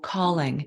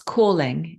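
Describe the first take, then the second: First: It is said with an American accent. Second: It is said with a British accent. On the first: "or calling in American" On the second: "calling in British"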